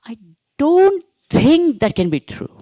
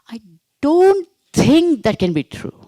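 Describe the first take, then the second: First: The word don't carries the main stress. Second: The word don't carries the main stress.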